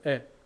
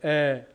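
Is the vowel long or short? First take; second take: short; long. First: The vowel is held only briefly. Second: The vowel is held for a long time. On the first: "짧은 에" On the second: "긴 발음이 납니다"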